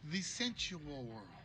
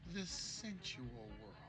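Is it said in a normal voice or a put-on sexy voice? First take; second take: normal; sexy. First: It is said in a normal voice. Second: It is said in a put-on sexy voice.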